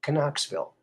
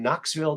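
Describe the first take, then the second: First: The word starts with a sounded k before n. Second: The word starts with a plain n sound.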